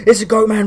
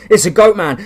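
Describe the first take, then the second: First: High scream, a touch less loud. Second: High loud panicked scream. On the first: Cultists repeat the panicked scream as they run. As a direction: keep shrieking while running. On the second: Fleeing cultists scream at the monster. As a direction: shriek it as you flee. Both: Acted.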